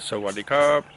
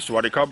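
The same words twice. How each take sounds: First: The greeting is said softly and gently. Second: The greeting is said flatly and bluntly. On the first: The speaker calls it right. "it's a lot to do with the tone" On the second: The speaker calls it wrong. "You just say Sawadee Kub, that's not going to work"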